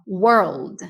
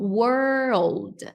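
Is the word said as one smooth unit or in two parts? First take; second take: one unit; two parts. First: It is said as one smooth unit. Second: It is split into two separate parts. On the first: The speaker calls it right. "como se fosse um momento só" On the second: The speaker calls it wrong. "Sub e desço da escada"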